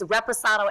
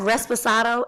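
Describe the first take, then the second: First: No extra s sound comes before the p. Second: An extra s sound comes before the p. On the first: The speaker calls it right. "It's Reposado" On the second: The speaker calls it wrong. "a drink they can't even pronounce"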